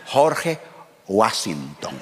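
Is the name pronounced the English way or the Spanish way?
Spanish. The name is pronounced with Spanish sounds. "la Real Academia Española me concede a mí la autoridad de pronunciar en mi propia lengua cualquier nombre extranjero"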